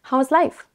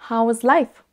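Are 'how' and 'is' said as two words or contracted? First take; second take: two words; two words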